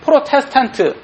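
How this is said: It is said with a Korean accent. "한국 사람은 프로테스탄트 이렇게 발음합니다"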